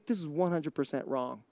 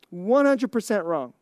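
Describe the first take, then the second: First: Much softer and lower; hushed aside. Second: Said in the usual way. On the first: Real, not acted. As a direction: drop it low, almost under your breath. Confidential aside before firm repeat.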